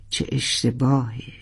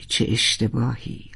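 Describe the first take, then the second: First: Regretful sigh. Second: Softer, lower second lament; quieter regretful echo. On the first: Regretful repeated lament. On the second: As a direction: let it fade into regret. (زمزمهٔ پشیمان) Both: Acted.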